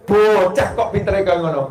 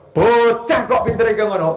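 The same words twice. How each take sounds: First: A hint of grandma's sweet scolding; light old Javanese grandmother voice; mock grandma scold. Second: Pitched up mock grandma; a teasing, higher scold like an old grandma. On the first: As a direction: gently chide in a grandma's voice. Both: Shown as a demonstration. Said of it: "Betul kan ya?".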